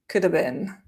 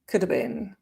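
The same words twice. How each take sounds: No difference in how they are said.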